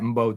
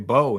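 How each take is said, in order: First: The name starts with an audible M sound. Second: The name starts directly with a B sound. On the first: "You sound it. I thought Mbo too" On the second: "just say Bo"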